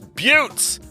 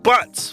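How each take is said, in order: First: The vowel is a long 'yoo' sound. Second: The vowel is a short 'uh' sound. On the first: The speaker calls it right. "It's buttes" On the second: The speaker calls it wrong. "not butts"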